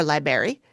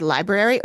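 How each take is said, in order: First: "library" said as "LIE-berry"; library without first R. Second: Said in the usual way. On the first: Retold or imitated. Co-host wondering how he said it, "library" as "LIE-berry". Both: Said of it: "it's his accent".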